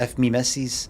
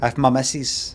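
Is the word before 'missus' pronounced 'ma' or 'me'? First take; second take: me; ma. First: The word before missus sounds like 'me'. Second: The word before missus sounds like 'ma'. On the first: This is how the script writes it. "rather than if me misses" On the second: This is how a Scottish speaker would naturally say it. "it's normally like ma"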